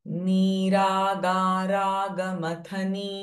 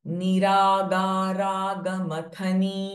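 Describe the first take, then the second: No difference in how they are said.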